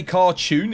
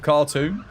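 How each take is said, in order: First: "cartoon" said as car-tyoon; marked British pronunciation. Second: Said in the usual way. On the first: Shown as a demonstration. Streamer checking a pronunciation, "cartoon" in the upper-class car-tyoon form. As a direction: say "cartoon" with a y-glide before the oo. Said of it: "You say cartoon instead of cartoon?". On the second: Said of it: "instead of cartoon".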